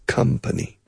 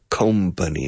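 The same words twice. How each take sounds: First: The first syllable sounds like 'come'. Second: The first syllable does not sound like 'come'. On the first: The speaker calls it right. "It rhymes with come" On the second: The speaker calls it wrong. "It's not company"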